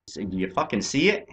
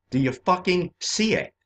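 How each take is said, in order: First: Said in the usual way. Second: Higher, pushed-up demand with stress on see; insistent, raised, with see punched; forceful repeat. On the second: Real, not acted. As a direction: hammer the question home. Repeats the question, second more forceful.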